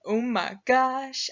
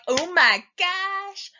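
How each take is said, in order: First: Lightly voiced bear with a drawn-out exclamation; excited bear. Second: High, loud, long drawn-out squeal of excitement; hyped-up fox. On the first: Bear thrilled about the miller's wedding, mildly excited. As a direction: draw it out slowly, a touch of bear excitement. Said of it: "And the bear, he's like". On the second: Acted. Fox off to the miller's wedding, wildly excited. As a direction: stretch it out like an over-excited party fox. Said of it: "and the fox is like".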